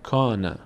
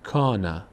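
Both takes have the same delivery.

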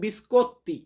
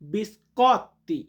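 First: The o vowel is said closed and rounded. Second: The o vowel is said open, like Bengali অ. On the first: The speaker calls it wrong. "অনেকে উচ্চারণটা এইভাবে করে" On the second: The speaker calls it right. "শুদ্ধ উচ্চারণটা করতে গেলে আমরা বলবো"

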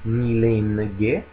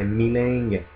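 First: The vowel is followed by a full n. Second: The vowel is nasalized with no full n. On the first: The speaker calls it wrong. "non è milenge" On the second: The speaker calls it right. "ma è milenge. En, è un suono nasale"

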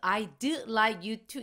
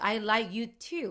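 First: The d sound after I is clearly pronounced. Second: The d sound after I is dropped entirely. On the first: The speaker calls it wrong. "이런 식으로 발음 잘 안 해요" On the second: The speaker calls it right. "드 발음 생략해버려요"

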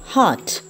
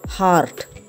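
First: The R sound is soft or left out. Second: The R sound is strongly pronounced. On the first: The speaker calls it right. "These words should be pronounced as" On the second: The speaker calls it wrong. "It's wrong"

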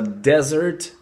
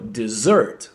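First: It sounds like the word for a sandy wasteland. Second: It sounds like the word for a sweet course. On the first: It names a sandy wasteland. "Пустыня произносится desert" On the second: It means to abandon. "вот именно в таком спеллинге, как пустыня, а читается так как десерт"

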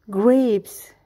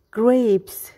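Both takes have the same delivery.

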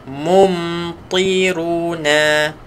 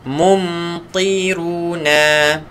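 Both takes have the same delivery.

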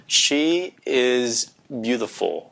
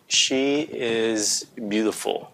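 Both takes have the same delivery.

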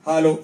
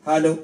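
The two takes are said the same way.

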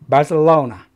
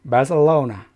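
Both takes have the same delivery.

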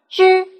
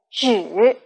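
First: The syllable is said with a high level tone. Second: The syllable is said with a falling-rising tone. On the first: It is used as a measure word. "止在表示量词的时候读第一声之" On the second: It means only. "其他的时候读第三声止"

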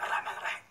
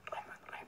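First: It is said loudly, disturbing others. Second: It is said quietly, barely audible.

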